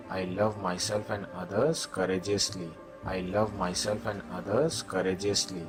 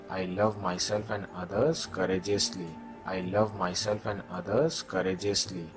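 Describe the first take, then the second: No difference in how they are said.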